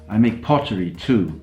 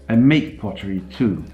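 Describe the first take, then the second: First: The word pottery carries the main stress. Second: The word make carries the main stress. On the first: The speaker makes other things besides. "I don't only make guitars" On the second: The speaker does more than sell pottery. "I don't only sell it"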